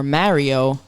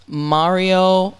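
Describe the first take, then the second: First: "Mario" with flat a, MARE-ee-oh; alternative pronunciation. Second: "Mario" with broad ah, MAH-ree-oh; first pronunciation offered. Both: Shown as a demonstration. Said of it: "or Mario".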